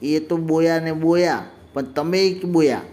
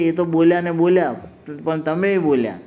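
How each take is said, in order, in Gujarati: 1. l ના અવાજ બદલાઈ જાય છે, લિસ્પ ની રીતે. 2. l ના અવાજ સ્પષ્ટ અને સામાન્ય રીતે બોલાય છે. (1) "પોતે ઠપકો આપતી ને જરા વધારે ડાઈ થતી બોલી" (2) "મતલબ કે"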